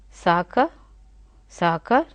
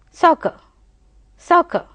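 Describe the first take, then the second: First: Soccer with a long open A and an R at the end; American soccer. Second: Soccer quick, with no R at the end; British soccer. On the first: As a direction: lengthen the A in Soccer and sound the R. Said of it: "at the end we have to give that, uh, raw sound". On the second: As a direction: club the sounds of Soccer together quickly. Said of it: "We are not giving ra sound over there". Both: Shown as a demonstration.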